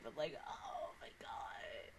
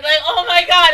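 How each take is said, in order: First: Breathless whispered gasp; barely voiced awe. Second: Much louder, higher outcry; loud gush. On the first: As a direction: hush it like a secret. Overwhelmed fan aside. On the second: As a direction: blurt it out loud in delight. Overwhelmed fan outburst. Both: Real, not acted.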